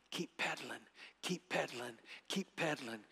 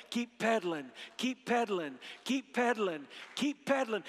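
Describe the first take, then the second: First: Soft, low-pitched steady coaching; low in the ear. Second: Building chant, rising in pitch; a little louder. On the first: Retold or imitated. Father beside his son's bike, saying it softly in his ear. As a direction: repeat it quietly, like running alongside. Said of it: "saying in your ear". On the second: Shown as a demonstration. Preacher gets audience chanting along with him, a little louder. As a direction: lead the crowd in a growing rhythmic chant. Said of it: "A little louder".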